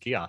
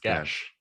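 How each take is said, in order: First: The word is said without a 'sh' sound. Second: The word is said with a 'sh' sound. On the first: The speaker calls it wrong. "only ever heard it as Gios" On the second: The speaker calls it right. "a S H sound"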